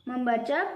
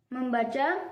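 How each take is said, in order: No difference in how they are said.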